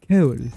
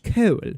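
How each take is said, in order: First: Said in the speaker's own regional accent. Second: Said in a posh upper-class English accent. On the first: "in my accent, I just say coal" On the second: "makes me sound like I'm speaking the Queen's English"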